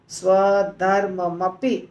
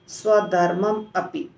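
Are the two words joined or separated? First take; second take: joined; separated. First: The two words run together as one word. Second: The two words are said with a break between. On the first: The speaker calls it wrong. "तो हम ऐसे नहीं बोलेंगे" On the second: The speaker calls it right. "हम क्या बोलेंगे?"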